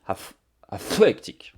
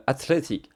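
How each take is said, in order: First: ATHLETIC in a laboured English accent, blowing hard on the th; clumsy, drawn-out English accent on athletic; overdone English accent. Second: Said in the usual way. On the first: Real, not acted. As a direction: slowly force out the English th in athletic. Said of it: "avec mon superbe accent anglais, mon pauvre micro". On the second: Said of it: "avec mon superbe accent anglais".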